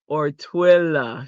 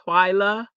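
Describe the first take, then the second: First: The first vowel is a short 'ih' sound. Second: The first vowel is a long 'eye' sound. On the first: "short I?" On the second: "Is it long I"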